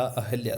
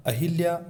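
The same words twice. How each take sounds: First: अहल्या with a, no i; correct pronunciation. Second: अहिल्या with i after ह; mispronunciation demo. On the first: Teacher corrects students, अहल्या pronounced a-hal-ya. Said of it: "अहल्या था". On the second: Teacher shows the mistake, अहिल्या mispronounced as a-hil-ya. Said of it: "अहिल्या नहीं था". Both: Shown as a demonstration.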